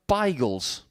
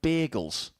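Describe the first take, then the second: First: The word has a local London pronunciation. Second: The word has its usual pronunciation. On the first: This is what some Londoners call them. "They call them bagels" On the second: This is not what some Londoners call them. "they don't call them bagels"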